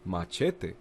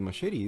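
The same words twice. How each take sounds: First: The word is pronounced with Spanish sounds. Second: The word is pronounced with English sounds. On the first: The speaker calls it right. "it's machete in Spanish" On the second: The speaker calls it wrong. "It's not machete"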